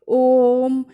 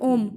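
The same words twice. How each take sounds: First: The first vowel is held for a long time. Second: The first vowel is said quickly, without holding. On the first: The speaker calls it right. "पहले ओ बोलेंगे, ओ को फिर ओ को एक लंबे duration तक लिए रहेंगे" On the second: The speaker calls it wrong. "आप ऐसे नहीं कहते"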